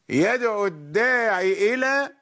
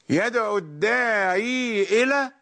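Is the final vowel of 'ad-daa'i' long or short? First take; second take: short; long. First: The final vowel of the second word is short. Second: The final vowel of the second word is long. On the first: "بحذف الياء" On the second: "بإثبات الياء"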